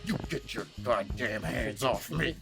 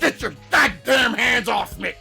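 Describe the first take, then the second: First: It is said with a low, simmering intensity. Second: It is said plainly, without simmering intensity.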